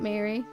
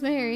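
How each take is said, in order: First: It is said like English Mary. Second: It is said like Japanese Ma-ri. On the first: The speaker calls it wrong. "not Mary" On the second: The speaker calls it right. "it's pronounced Mary, because in Japanese it's Ma and Henry"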